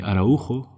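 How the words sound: The name is said with Spanish pronunciation. "In Spain, they call me Araujo"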